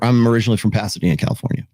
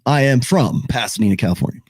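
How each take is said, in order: First: It is said in a casual, unremarkable way. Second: It is said in a confident, assertive way.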